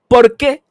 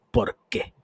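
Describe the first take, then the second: First: Much higher and louder indignant why, rising; shouted why. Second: A sudden whispered question, under the breath; whispered why. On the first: Ranting vlogger challenges viewers why, shouted. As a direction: fire the question back hard. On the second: Ranting vlogger asks viewers why, whispered. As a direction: breathe the why almost silently. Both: Real, not acted. Ranting about pronouncing brand names.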